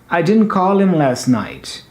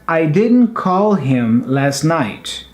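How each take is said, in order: First: Faster and fluid, with the h in him dropped. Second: Slow and deliberate, with the h in him pronounced. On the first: "the second time, I'm speaking a bit faster, a bit more fluent or fluid, and making some cuttings" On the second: "the first time I'm pronouncing, I'm speaking a little bit more deliberate, more paused and slower"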